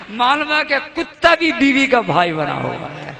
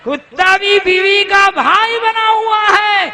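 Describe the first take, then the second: First: Said in the usual way. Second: Much higher, loud repeat, hammer it home; fiery preacher's shout; preaching shout. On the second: Real, not acted. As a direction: shout the line again to the crowd.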